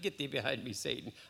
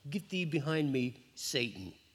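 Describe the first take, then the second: First: It is said lightly, with a laugh. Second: It is said harshly and meanly.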